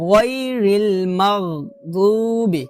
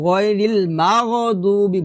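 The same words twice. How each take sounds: First: Slow "গায়রিল মাগদুবি" with throaty gh; correct ghain. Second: "মাগদুবি" said "ma-go-dubi", extra vowel; "গায়রিল মাগদুবি" with a vowel after g; mistaken magh. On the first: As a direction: close "মাগ" on gh with no added vowel. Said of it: "বলতে হবে গ". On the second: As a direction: break "মাগ" into two syllables. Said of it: "বড় একটা ভুল করি". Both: Shown as a demonstration.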